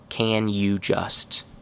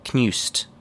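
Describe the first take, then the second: First: Each of the three words is said fully. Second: The words blend heavily, dropping the 'you'. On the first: "Very correct, but nobody actually says it this way" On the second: "A little bit less chewing gum-like, but still very chewing gum"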